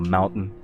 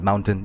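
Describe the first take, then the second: First: The T is soft and barely heard. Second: The T is crisp and clearly pronounced. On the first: "the ultra soft T's that an American would have" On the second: "I would include the T"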